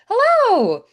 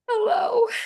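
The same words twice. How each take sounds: First: It sounds bright and excited. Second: It sounds tired and weary. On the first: The speaker is thrilled to see the listener. "like, I'm so excited to see you" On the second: The speaker needs comfort after a hard day. "I had a really hard day and I just really need a hug"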